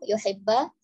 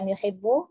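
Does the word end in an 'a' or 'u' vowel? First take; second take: a; u. First: The word ends in an 'a' vowel. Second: The word ends in an 'u' vowel. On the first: The speaker calls it right. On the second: The speaker calls it wrong. "bukan yuhibbu"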